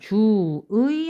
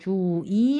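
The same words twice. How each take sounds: First: The second syllable has the vowel ui. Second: The second syllable has the vowel i.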